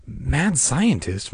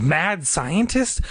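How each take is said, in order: First: Slow, pondering words; drawn-out musing, weight on "Mad"; inner thought. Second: Slow, high questioning echo; drawn-out, rising alarm; mounting thought. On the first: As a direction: turn MAD SCIENTIST over slowly in your mind. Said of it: "Margaret thought". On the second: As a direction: repeat it higher, with growing disbelief. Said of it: "The words kept repeating in her mind". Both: A narrator's reading.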